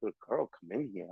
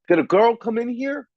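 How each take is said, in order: First: Much softer, quick mumbled repeat; mocking undertone repeat. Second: Raised, louder quote of a brusque worker; imitating the union worker. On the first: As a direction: toss it off under your breath, fast, mocking. Repeating his question mockingly. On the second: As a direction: play the grunt asking loudly, pitched up. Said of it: "He's like".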